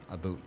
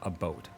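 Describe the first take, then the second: First: The vowel sounds like 'boot'. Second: The vowel sounds like 'boat'. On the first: The speaker calls it wrong. "Canadians don't say a boot" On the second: The speaker calls it right. "It's more like a boat"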